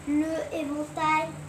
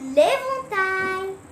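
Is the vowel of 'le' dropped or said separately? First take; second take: separate; dropped. First: The vowel of 'le' is said separately. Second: The vowel of 'le' is dropped and joined. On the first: The speaker calls it wrong. "On ne peut pas faire le éventail" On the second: The speaker calls it right. "voilà comment elle s'appelle"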